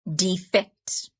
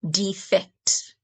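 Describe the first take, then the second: First: The stress is on the second syllable. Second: The same.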